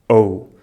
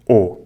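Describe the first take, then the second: First: It is said as a gliding o-u diphthong. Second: It is said as a single plain o vowel. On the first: The speaker calls it right. "pronunciam este ditongo corretamente" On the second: The speaker calls it wrong. "exceto o ditongo ou, que pronunciamos o"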